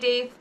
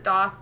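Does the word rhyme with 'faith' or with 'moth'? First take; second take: faith; moth. First: The word rhymes with 'faith'. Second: The word rhymes with 'moth'. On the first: This is a pronunciation other people use. "you say daith, I'm not judging you" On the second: This is the speaker's own usual pronunciation. "you'll probably hear me pronounce it doth. That's the pronunciation I use"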